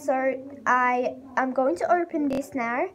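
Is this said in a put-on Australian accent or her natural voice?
Australian. It is spoken in a put-on Australian accent. "I'm just gonna talk Australian accent"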